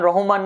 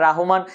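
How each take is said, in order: First: The first syllable is said as 'Roh'. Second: The first syllable is said as 'Rah'. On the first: The speaker calls it wrong. "রহমান না" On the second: The speaker calls it right.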